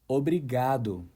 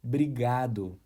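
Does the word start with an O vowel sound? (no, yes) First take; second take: yes; no. First: The word starts with an O vowel sound. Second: The word starts directly with a B sound. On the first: "The correct pronunciation is obrigado" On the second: "without the O sound at the beginning of the word"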